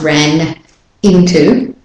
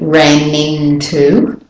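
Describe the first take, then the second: First: The two words are said with a break. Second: The two words run together as one. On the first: The speaker calls it wrong. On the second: The speaker calls it right. "it's like it's all one multisyllabic word"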